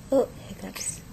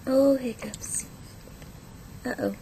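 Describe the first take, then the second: First: Said in the usual way. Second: Breathy whisper. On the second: Shown as a demonstration. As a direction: whisper it to the baby. Parent talking to baby with hiccups.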